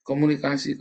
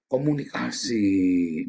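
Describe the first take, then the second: First: Said in the usual way. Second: Komunikasi stretched very slowly, each syllable held; drawn-out emphasis. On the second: Shown as a demonstration.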